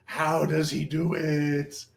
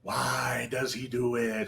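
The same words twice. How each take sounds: First: Mock mystery. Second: Slow, much softer, like a secret; a hushed, spooky showman's whisper; hushed mock mystery. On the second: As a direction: murmur it as a mysterious aside. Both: Performer narrates own mystique.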